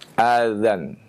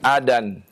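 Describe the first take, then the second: First: The middle consonant is a soft dh sound. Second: The middle consonant is a d sound. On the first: The speaker calls it right. "mengucapkan azan" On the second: The speaker calls it wrong. "bukan adan"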